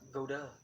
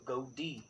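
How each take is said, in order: First: The word ends with a 'duh' sound. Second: The word ends with a 'dee' sound. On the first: The speaker calls it wrong. "not go duh" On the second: The speaker calls it right. "So go D"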